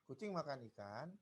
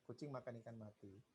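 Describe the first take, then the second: First: There is a pause before the last word. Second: It is said in one phrase without a pause. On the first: The cat ate the fish and then the cat died. "Jadi beda penggalan, beda cara bacanya" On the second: The cat ate a fish that was already dead. "Sama ya"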